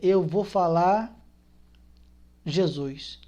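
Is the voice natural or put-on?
natural. It is said in a natural speaking voice.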